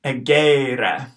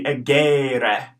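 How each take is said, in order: First: "egere" with short e, long middle e, short e; repeated "egere"; careful Latin pronunciation. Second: "egere" said at normal pace; first take of "egere"; modelled Latin word. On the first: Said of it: "the one in the middle is long". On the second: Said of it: "The first and last one are short". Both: Shown as a demonstration.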